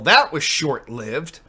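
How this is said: It is read in an upset, mean tone. The writer feels betrayed. "the way you read that came off very mean"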